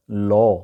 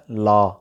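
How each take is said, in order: First: "لا" with rounded "aw"; native-style pronunciation. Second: "لا" with open "aa": laa; common mispronunciation. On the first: Teacher gives the native speakers' law, clear model. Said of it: "اس کا گوروں والا تلفظ". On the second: Teacher shows the local way of saying law, mispronounced. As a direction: say "لا" as "laa", unrounded. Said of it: "جیسا کہ میں نے ابھی بولا". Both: Shown as a demonstration.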